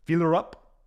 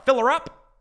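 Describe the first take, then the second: First: Put-on a second try at the Russian accent, at normal pitch; an even-pitched Russian accent take, testing the sound. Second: High, loud, hammed-up Russian accent as Putin the pump attendant; a first stab at a Putin-style Russian accent, pitched up and louder. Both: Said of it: "I gotta work on my Russian accent".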